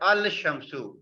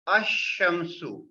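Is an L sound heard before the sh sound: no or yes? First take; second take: yes; no. First: The l is pronounced before the sh. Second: The l is silent and sh is doubled. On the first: The speaker calls it wrong. "not al-shamsu" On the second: The speaker calls it right. "The correct pronunciation is ashamsu"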